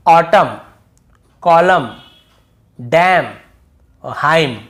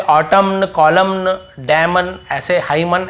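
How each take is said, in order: First: "ऑटम, कॉलम, डैम" ending on M, louder; silent N. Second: "ऑटमन, कॉलमन, डैमन" with an extra N at the end; wrong N sounded. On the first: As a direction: end each word on M with no N. ("ऑटम, कॉलम" बिना एन के) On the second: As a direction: add an N after the M in "ऑटमन". ("ऑटमन, कॉलमन" एन बोलते हुए) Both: Shown as a demonstration. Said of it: "ऐसे नहीं पढ़ना है".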